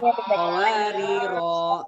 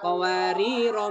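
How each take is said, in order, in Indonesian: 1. Vokal akhir dibaca panjang. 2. Vokal akhir dibaca pendek. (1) "rohnya dibaca panjang ya" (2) "rohnya dibaca pendek"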